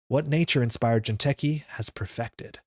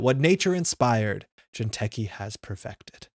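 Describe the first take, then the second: First: It runs on with no break after inspired. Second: It has a clear break after inspired. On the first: The speaker calls it wrong. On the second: The speaker calls it right.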